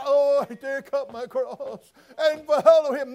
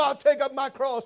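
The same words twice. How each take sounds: First: Slow, sing-song holier-than-thou "I take up my cross"; drawn out with fake piety on "follow"; mock pious. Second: "I'll take up my cross" said firm and emphatic, stress on "I'll"; firm declaration. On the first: Preacher mocking half-hearted believers, slow sanctimonious sing-song. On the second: Preacher showing true commitment, firm emphatic vow. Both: Shown as a demonstration.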